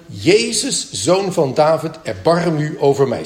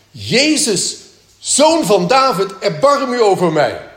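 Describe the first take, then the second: First: Said in the usual way. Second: Higher and louder, calling out for help; crying out. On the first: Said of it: "hij riep de woorden". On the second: Pretend. Someone in the meeting suddenly calling to Jesus, crying out loud. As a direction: shout the plea across the hall. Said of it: "ineens begint te roepen".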